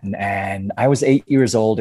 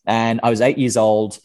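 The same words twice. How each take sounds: First: Slow, put-on American accent; Australian demonstrating American speech. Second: Said in the usual way. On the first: Shown as a demonstration. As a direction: say it as an American would. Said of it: "an American accent for me". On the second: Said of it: "that's so weird".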